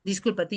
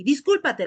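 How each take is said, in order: First: Said in the usual way. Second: 1 ordering an apology. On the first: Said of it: "le estamos obligando al pobre". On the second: Retold or imitated. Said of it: "Si nosotros llegamos ahí".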